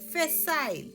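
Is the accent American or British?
British. It is said with a British accent.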